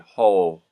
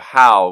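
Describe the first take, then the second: First: The vowel is rounded, sounding close to ol. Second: The word has a plain ow vowel.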